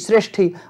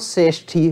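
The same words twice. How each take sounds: First: The word begins with a full 'shr' cluster. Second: The word begins with a plain 's' sound. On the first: "श्रेष्ठी शब्द का उच्चारण करो" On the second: "स्र ना कह के सा अगर कहें"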